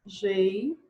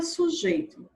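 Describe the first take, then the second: First: "Sujeito" broken into three syllables with long pauses. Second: Said in the usual way. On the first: Shown as a demonstration. Teacher first separating the syllables, "Sujeito" in pieces. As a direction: say "Sujeito" slowly, one isolated syllable at a time. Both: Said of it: "vamos primeiro separar a sílaba".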